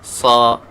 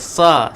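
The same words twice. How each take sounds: First: The 'sa' sound is heavy and full. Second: The 'sa' sound is thin and light. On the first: The speaker calls it right. "sa kena tebal lah" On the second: The speaker calls it wrong. "Jangan sa"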